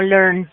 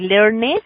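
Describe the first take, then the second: First: The ending is a plain d sound. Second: The ending is not a plain d sound. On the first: The speaker calls it right. "ese ed lo vamos a pronunciar como una D" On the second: The speaker calls it wrong. "no voy a decir learned"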